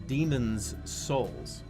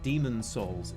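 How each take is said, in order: First: An 's' sound is heard after 'Demon'. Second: No 's' sound is heard after 'Demon'. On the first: The speaker calls it right. "It's Demon's Souls" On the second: The speaker calls it wrong. "It's it's not Demon Souls"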